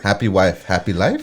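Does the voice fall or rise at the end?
rises. The voice rises at the end, like a question.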